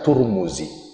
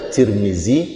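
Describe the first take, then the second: First: The name is said with 'u' vowels. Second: The name is said with 'i' vowels. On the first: "bisa dibaca Turmuzi ... bil dhammah" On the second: "bisa dibaca Tirmizi ... bil kasrah"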